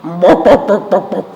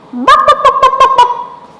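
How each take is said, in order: First: Dog bark. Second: High, loud rapid-fire yapping; badly faked dog, squeaky and loud; chicken-like dog bark. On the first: Acted. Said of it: "Let me try that dog again". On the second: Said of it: "That sounded more like a chicken".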